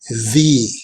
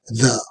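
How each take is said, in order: First: It is said the way used before vowels. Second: It is said the way used before consonants. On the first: "Before a vowel sound, the pronunciation of the article is" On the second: "But when it is before a consonant sound, the pronunciation is"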